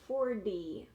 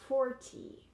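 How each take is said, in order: First: The middle consonant is a soft D sound. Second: The middle consonant is a clear T sound. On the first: The speaker calls it right. "here we say forty with a D sound" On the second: The speaker calls it wrong. "I'm saying it a little bit weird, not like a native speaker"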